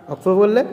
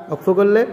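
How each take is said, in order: The two takes are said the same way.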